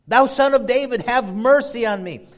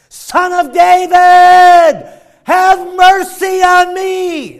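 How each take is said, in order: First: It is read calmly, without much force. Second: It is cried out loudly and desperately.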